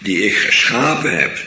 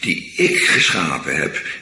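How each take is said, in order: First: The stress falls on the verb geschapen. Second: The stress falls on the word ik. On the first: The focus is on the different things done. The speaker calls it wrong. "Zo hoor je dat niet te lezen" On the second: The focus is on who did it. The speaker calls it right. "daar ligt de klemtoon op"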